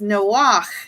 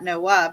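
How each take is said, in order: First: The name ends in a throaty ch sound. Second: The name ends in a plain vowel. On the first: The speaker calls it right. "it's Noach is how you pronounce it in Hebrew" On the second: The speaker calls it wrong. "It's not Noah, but it's the ch sound"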